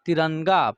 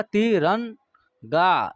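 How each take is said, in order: First: Said in the usual way. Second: तिरंगा drawn out very slowly, every syllable clear; teacher modelling तिरंगा for the class, very slow; slow careful demo. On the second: Shown as a demonstration. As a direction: stretch out तिरंगा so pupils hear the half n. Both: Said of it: "इसका उच्चारण न का होगा".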